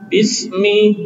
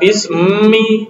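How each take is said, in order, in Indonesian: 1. Bunyi m dan vokalnya terdengar ringan dan tipis. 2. Bunyi m dan vokalnya terdengar berat dan tebal.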